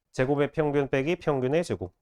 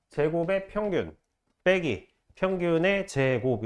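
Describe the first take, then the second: First: Said in the usual way. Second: Slow, with pauses setting off 제곱의 평균, 빼기, 평균의 제곱; teacher spacing out 제곱의 평균 / 빼기 / 평균의 제곱; phrased reading. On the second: Shown as a demonstration. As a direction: break after 제곱의 평균 and draw out 평균의 제곱. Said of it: "이렇게 읽는 거예요".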